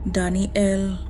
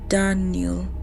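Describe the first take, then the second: First: The name is said with three syllables. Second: The name is said with two syllables. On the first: It is not really the child calling. The speaker calls it wrong. "the voice in the forest has been saying it with three" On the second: It is how the child says his own name. The speaker calls it right. "Daniel's name only has two syllables"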